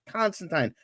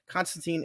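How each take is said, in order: First: The name uses the original, non-American pronunciation. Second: The name uses the American pronunciation. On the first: This is how the original creator says it. "it is in fact Constantine" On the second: This is the common American way. "Constantine is actually the American pronunciation"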